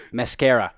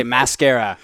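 First: "Mascara" in a New Zealand accent, first vowel as in "mess". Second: Said in the usual way. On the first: Shown as a demonstration. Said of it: "I would do a New Zealand accent". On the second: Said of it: "okay, so let's say".

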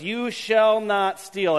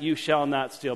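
First: You shall not steal, each of the four words drawn out slowly; slow, deliberate recitation. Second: Said in the usual way. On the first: Shown as a demonstration. Pastor announcing the day's commandment, slow and weighty. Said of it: "Four words". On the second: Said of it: "quoted again in passing".

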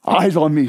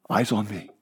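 First: Louder, firmer call; firm command. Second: Softer, lower, intimate command. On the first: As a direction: lift it into a strong call. Voicing Jesus' command again. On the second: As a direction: draw them in gently. Voicing Jesus' command. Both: Acted.

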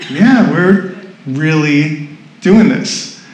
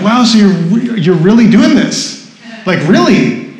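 First: Slow, spaced-out reply at normal pitch; deliberate confirmation. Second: Mildly amazed, slightly raised questioning voice; incredulous onlookers. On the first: Speaker confirming the decision to onlookers, deliberate. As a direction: draw it out, settled and certain. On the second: People questioning the speaker's decision, incredulous. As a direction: imitate people who can't quite believe it. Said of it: "people would see us and they're like". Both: Retold or imitated.

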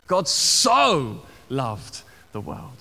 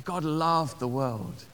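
First: "so" drawn out long and leaned on; stress on "so". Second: Said in the usual way. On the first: Shown as a demonstration. Preacher showing the congregation Jesus's point of emphasis, stress on "so". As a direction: hit "so" hard, then slow through "loved the world". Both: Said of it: "this point of emphasis".

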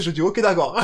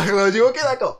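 First: Said in the usual way. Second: Louder laughing repeat of ok d'accord. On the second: Real, not acted.

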